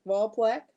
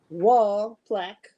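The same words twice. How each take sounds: First: Wall plaque with a rising, checking tune; questioning repeat. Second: Wall plaque drawn out slowly, falling; slow announced name. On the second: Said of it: "It's S G, talk to me". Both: Shown as a demonstration.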